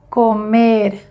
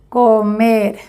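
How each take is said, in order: First: The final r sounds like a Spanish r. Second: The final r sounds like a Spanish r.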